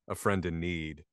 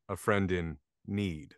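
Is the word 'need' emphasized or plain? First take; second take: plain; emphasized. First: Need is said in the ordinary way. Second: Need is said with marked emphasis. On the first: It carries the usual meaning. "instead of saying a friend in need" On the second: It hints at a pun on another word. "I said a friend in need"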